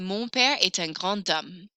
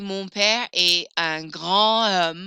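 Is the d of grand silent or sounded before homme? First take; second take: sounded; silent. First: The d sounds like t, linked into homme. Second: The d is silent, with a break before homme. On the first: The speaker calls it right. "I'm going to pronounce that D kind of like a little T" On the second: The speaker calls it wrong. "I'm not going to say"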